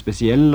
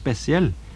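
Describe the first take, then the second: First: The stress is on the last syllable. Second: The stress is on the first syllable. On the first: "kan de få trykket på andre stavelser også når det blir lånt inn i norsk" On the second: "i mange dialekter så får også de ordene trykket på første staving"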